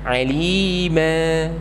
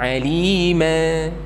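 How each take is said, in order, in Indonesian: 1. Kata ini berakhir mulus dan rata. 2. Kata ini berakhir mulus dan rata.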